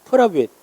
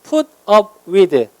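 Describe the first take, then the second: First: The words run together in an American way. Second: Each word is said clearly and separately.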